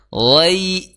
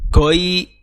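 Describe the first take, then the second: First: The word starts with a throaty fricative. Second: The word starts with a hard g sound. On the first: The speaker calls it right. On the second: The speaker calls it wrong.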